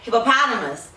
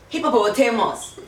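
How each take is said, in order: First: The word is said with an American pronunciation. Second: The word is said with a Ghanaian pronunciation. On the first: "here they're like" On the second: "in Ghana they'll say"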